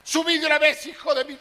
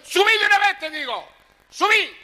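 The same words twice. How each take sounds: First: Higher, louder mock scolding; calling him up. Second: Much higher, loud scolding wife voice; screaming at him. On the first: Wife orders drunk husband upstairs, loud mock yell. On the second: Retold or imitated. Wife screams at husband to come up, high loud yell. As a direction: shriek the order up from the balcony. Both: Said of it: "Le gritaba a la vieja".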